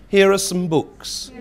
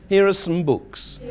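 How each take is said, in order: Both takes have the same delivery.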